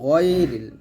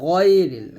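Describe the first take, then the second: First: The first syllable is heavy and thick. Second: The first syllable is heavy and thick.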